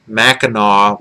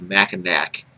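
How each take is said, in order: First: Mackinac ending in "naw", final c silent; local Mackinac. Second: Mackinac with a hard final "nack"; imitating Molyneux's Mackinac. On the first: Shown as a demonstration. Michigander showing his home pronunciation, local Mackinac. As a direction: say Mackinac as MACK-in-aw. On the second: Mocking how Molyneux says the name, Mackinac as "nack". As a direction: say Mackinac as MACK-in-ack, the outsider way. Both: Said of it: "Stefan Molyneux always calls Mackinac".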